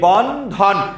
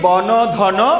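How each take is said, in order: First: No vowel is sounded after the first n. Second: A vowel is sounded after the first n. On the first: The speaker calls it right. "আমরা কিন্তু পরের নয়ের সাথে কিছু উচ্চারিত করি না।" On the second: The speaker calls it wrong. "আমরা কি বলি বন ধন এরকম বলি? নো, বলি না।"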